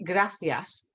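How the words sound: The middle consonant sounds like a th. This is how people from Spain say it. "they say gracias ... this T H sound"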